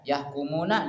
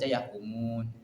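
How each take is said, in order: First: The word ends with a final vowel. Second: The word ends on a consonant, vowel dropped.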